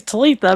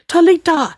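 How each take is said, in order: First: Talitha, with the th sound; correct name. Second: Talita, said with a hard T instead of Talitha; mispronounced name. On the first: Shown as a demonstration. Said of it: "my name's Talitha". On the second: Retold or imitated. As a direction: say Talita, the th as a plain t. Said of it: "like that".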